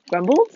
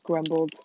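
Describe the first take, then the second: First: "Grumbled?" louder, rising sharply at the end; questioning GRUMBLED. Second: Said in the usual way. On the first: Real, not acted. Speaker doubts her own word, "Grumbled?" said as a louder rising question. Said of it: "don't think that's a word".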